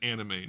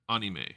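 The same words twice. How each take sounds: First: It is pronounced the usual English way. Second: It is pronounced the Japanese way. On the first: This is how people usually say it. "It's always anime" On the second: This is how it is said in Japanese. "not anime"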